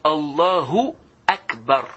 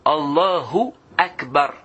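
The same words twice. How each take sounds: The two takes are said the same way.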